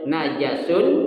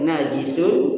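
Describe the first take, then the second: First: The second syllable has the vowel a. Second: The second syllable has the vowel i. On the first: "najis itu boleh dibaca ada tiga" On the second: "najis itu boleh dibaca ada tiga"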